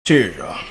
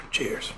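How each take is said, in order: First: Said in the usual way. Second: A whispered, sighing cheers; a tired sigh turning into cheers. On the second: Real, not acted. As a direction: breathe it out on a sigh. Sighed toast opening the video.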